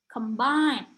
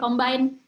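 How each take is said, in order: First: Flowing syllables with one clearly stressed syllable. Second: Short, even syllables with no clear stress. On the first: The speaker calls it right. "lebih flowy" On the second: The speaker calls it wrong. "kayak pendek-pendek combine"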